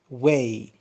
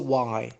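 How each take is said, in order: First: The vowel rhymes with 'day'. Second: The vowel rhymes with 'eye'. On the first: The speaker calls it right. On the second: The speaker calls it wrong.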